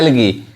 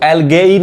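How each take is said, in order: First: The word ends with a plain 'ee' vowel. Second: The word ends with an 'ay-ee' vowel sequence. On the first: The speaker calls it right. "ये ए silent होता है" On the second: The speaker calls it wrong. "इसको एल्गेई नहीं कहते हैं"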